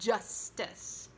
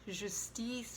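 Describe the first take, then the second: First: The J starts with a clear D sound. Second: The J starts softly without a D sound. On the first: The speaker calls it right. "Give a little D to the J and it will sound stronger" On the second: The speaker calls it wrong. "not justice"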